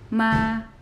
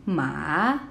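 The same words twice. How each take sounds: First: The pitch stays high and level. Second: The pitch dips down and then rises. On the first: "the first tone is a high tone, and it's leveled, it's straight" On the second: "goes down, and then goes up"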